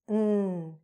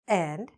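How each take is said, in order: First: The word is reduced to a short n sound. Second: The word is said in full as and. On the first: The word is said inside a phrase. "Instead of and, we're just saying n" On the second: The word is said on its own. "if I just say this word"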